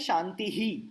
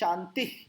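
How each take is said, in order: First: The word ends with an added breathy 'hi' sound. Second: The word ends plainly, with no added sound. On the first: "लेकिन आप क्या बोल सकते हैं" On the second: "मैं practice में यही बोलता हूं"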